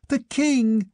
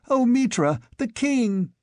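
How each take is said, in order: First: High shriek of recognition. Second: High, frantic cry to Mitra; shrieking. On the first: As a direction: scream out the discovery. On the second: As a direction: cry out in shocked relief. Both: A narrator's reading. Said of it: "shrieked Albiona".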